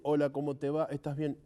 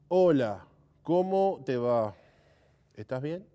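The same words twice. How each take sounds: First: It is said flat, without dynamic variation. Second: It is said with lively, varied dynamics.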